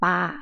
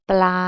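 First: The word is said without the L sound. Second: The word is said with a P-L cluster. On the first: It means to throw things. "ถ้าไม่มีเสียงลอลิง" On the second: It means a fish living in water. "แต่ถ้าเกิดอ่านว่าปลา"

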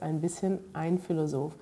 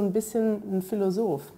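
First: The articles are said in full, with every sound. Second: The articles are shortened, dropping their first sound. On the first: This is the standard full form. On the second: This is casual everyday speech.

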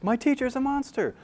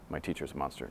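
First: It is read in a funny character voice. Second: It is read in a plain, ordinary voice. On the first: The speaker calls it right. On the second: The speaker calls it wrong.

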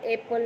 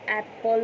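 First: The first vowel sounds like the vowel in bed. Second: The first vowel sounds like the vowel in cat. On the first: The speaker calls it wrong. "ए for एपल नाही म्हणत" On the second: The speaker calls it right. "ए for ॲपल म्हणत आहोत"

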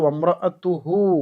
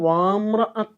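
First: The first vowel is short and clipped. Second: The first vowel is drawn out long. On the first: The speaker calls it right. "മീമ് സുക്കൂനുള്ള മീമാണ്" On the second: The speaker calls it wrong. "നമ്മൾ ഓതുമ്പോൾ വാമ്ര അത്ത് എന്നൊക്കെ ഓതി പോകാറുണ്ട്. അവിടെ അലിഫ് ഉച്ചരിക്കേണ്ടതില്ല"

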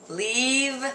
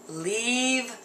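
The two takes are said the same way.

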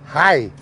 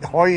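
First: The vowel sounds like 'eye'. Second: The vowel sounds like 'oy'. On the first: This is the local village dialect form. "Hier ist Hai" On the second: This is the standard German form. "Heu ist ja Hochdeutsch"

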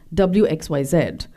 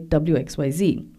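First: The last letter is said as zed. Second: The last letter is said as zee. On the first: The speaker is Canadian. "Canadians, following the British English pronunciation, would say" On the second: The speaker is American. "whereas Americans would say"

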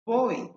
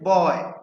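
First: The word ends in a clear 'ee' vowel. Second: The word ends in a short 'y' glide. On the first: The speaker calls it right. "হবে বই" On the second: The speaker calls it wrong. "আমরা বয় বলি কিন্তু আসলে বয় হয় না"

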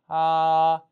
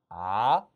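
First: The pitch stays high and level. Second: The pitch rises from mid to high. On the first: "한번더 일성" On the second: "이성"

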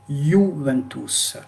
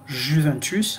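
First: The word begins with a 'y' sound. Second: The word begins with a soft 'zh' sound. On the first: The speaker calls it right. "En italien, on dit Juventus" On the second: The speaker calls it wrong. "Vous allez le lire comment?"

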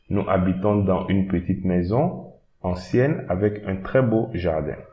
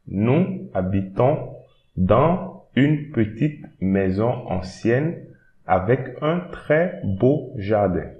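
First: It is read at normal speed. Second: It is read slowly and carefully.

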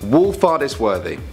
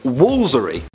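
First: Every written syllable of the name is pronounced. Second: The name is squeezed into three short syllables. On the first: The speaker calls it wrong. "I'm gonna say it the only way it looks like" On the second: The speaker calls it right. "But actually, apparently it's just Woolsery"

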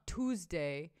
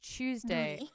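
First: It begins with a plain 'tooz' sound. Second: It begins with a 'tyooz' sound. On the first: The speaker calls it wrong. "Just like Tuesday. It's not Tuesday" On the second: The speaker calls it right. "It's Tuesday"

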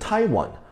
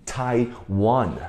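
First: The stress is on the first syllable. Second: The stress is on the second syllable. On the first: The speaker calls it wrong. "很多人会读成Taiwan，Taiwan，它音节放在前面" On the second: The speaker calls it right. "我们台湾的音节在后面"

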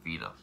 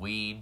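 First: The name starts with V and has two syllables. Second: The name sounds like "ween" with a W. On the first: The speaker calls it right. "I'm going to pronounce it right now" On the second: The speaker calls it wrong. "I've heard"

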